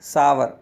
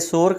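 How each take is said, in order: First: It has an ow vowel and then er. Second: It is one syllable with an o vowel. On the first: The speaker calls it right. "सही उच्चारण सावर होता है" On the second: The speaker calls it wrong. "इसे सोर कहा जाता है"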